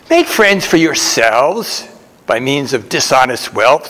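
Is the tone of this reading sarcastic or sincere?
sarcastic. It is read in a mocking, sarcastic tone. The advice is ironic and not meant literally.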